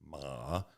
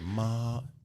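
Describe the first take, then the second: First: The pitch dips low, then comes back up. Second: The pitch stays high and level. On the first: "Third tone, the dipping tone" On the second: "all first tone"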